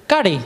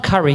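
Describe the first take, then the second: First: "Curry" said /kɑdi/ with a rolled d-like r; right pronunciation. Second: "curry" said like the food, /kʌri/; mock the crowd's "curry" as in the dish; wrong curry. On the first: Shown as a demonstration. Teaching the crowd, "Curry" said /kɑdi/, with a laugh. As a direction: give "Curry" as /kɑdi/, not the dish. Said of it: "Not curry". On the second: Correcting the audience, echoing their food-style "curry". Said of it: "Who said curry".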